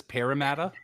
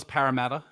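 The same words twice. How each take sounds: First: "Parramatta" with first vowel as in "pear"; "Parramatta" said the American way, pear-sound first; imitated mispronunciation. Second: Said in the usual way. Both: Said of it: "She says Parramatta".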